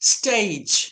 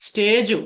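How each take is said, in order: First: The word ends on the consonant sound. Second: The word ends with an added vowel sound. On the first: The speaker calls it right. "ఈ word ఎలా పలకాలో" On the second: The speaker calls it wrong. "స్టేజు కాదండి"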